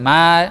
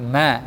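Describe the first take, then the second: First: The vowel is a plain, straight a. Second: The vowel leans slightly toward e. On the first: The speaker calls it wrong. "bukan ma, bukan dia lurus" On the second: The speaker calls it right. "tapi ma, ma, agak sedikit miring"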